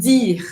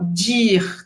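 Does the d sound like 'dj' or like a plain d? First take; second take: plain d; dj sound. First: The d is a plain, hard d sound. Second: The d is softened into a 'dj' sound. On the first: The speaker calls it right. "Então, dir" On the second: The speaker calls it wrong. "como em português do Brasil, que algumas pessoas falam dir"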